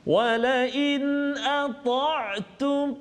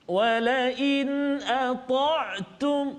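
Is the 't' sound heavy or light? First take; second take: heavy; heavy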